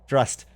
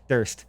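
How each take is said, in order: First: The r sound comes before the vowel. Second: The r sound comes after the vowel. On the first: The speaker calls it right. "Drust. I've been pronouncing that wrong for years" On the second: The speaker calls it wrong. "It's not even Durst"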